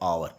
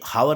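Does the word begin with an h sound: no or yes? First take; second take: no; yes. First: The word begins with a vowel sound. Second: The word begins with an h sound. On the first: The speaker calls it right. "इसका pronunciation होता है आवर" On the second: The speaker calls it wrong. "हावर नहीं होता"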